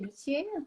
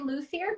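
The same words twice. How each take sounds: First: The word is pronounced with a French accent. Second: The word is pronounced with an English accent. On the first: "in French we would say luthier" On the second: "in English we would say luthier"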